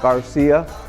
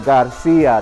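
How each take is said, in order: First: The name is pronounced the English way. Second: The name is pronounced the Spanish way. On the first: The speaker hides a Mexican heritage. The speaker calls it wrong. "not Garcia" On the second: The speaker is proud of a Mexican heritage. The speaker calls it right. "say Garcia"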